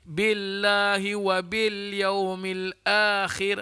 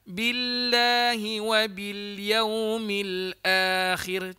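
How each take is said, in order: First: The 'i' vowels are flat, without spread lips. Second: The 'i' vowels are bright, with spread lips. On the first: The speaker calls it wrong. "Kalau kata tak senyum" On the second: The speaker calls it right. "Kalau senyum"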